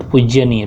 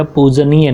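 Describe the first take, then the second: First: "पूज्यनीय" with an added y after j; wrong pronunciation. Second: "पूजनीय" with no y after the j; correct pronunciation. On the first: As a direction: slip a y-glide into "पूज्यनीय". ("पूज्यनीय" का गलत उच्चारण, ज्य के साथ) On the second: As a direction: say "पूजनीय" slowly with a plain j. ("पूजनीय" का सही उच्चारण, ज के बाद य नहीं) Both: Shown as a demonstration. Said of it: "पूजनीय not पूज्यनीय".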